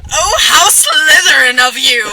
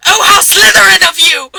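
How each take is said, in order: First: Delighted. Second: Mock angry. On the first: Acted. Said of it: "That was a compliment". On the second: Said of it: "that apparently wasn't angry".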